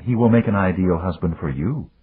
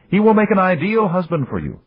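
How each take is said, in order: First: A dry echo, leaning on "make"; daughter's retort. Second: "will" stressed, pitch higher; father's version. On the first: Daughter turning father's words on him, stress on "make". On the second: Father insisting on the match, stress on "will". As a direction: lean on "will", sure of himself. Father's line, daughter echoes it. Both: Acted.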